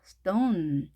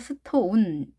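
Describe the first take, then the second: First: The vowel is light and weak. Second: The vowel is full and strong. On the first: The speaker calls it right. "가볍게 하시면 되겠습니다" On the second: The speaker calls it wrong. "스톤 이렇게 하지 마시고요"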